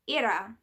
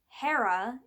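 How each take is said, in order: First: The name is said with a Greek pronunciation. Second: The name is said with an English pronunciation. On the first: "as her name would be pronounced in Greek" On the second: "in an anglicized English version"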